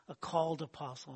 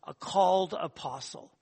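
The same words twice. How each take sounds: First: Said in the usual way. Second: Called pressed harder; weighting called in a called apostle; stress on called. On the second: Shown as a demonstration. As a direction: lean on the word called.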